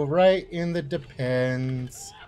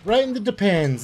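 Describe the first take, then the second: First: Slow, stretched "Right in the depends"; drawn-out taunt. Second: Said in the usual way. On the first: Real, not acted. Player taunting a shot enemy, drawn-out taunt. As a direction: drag out "depends" with relish.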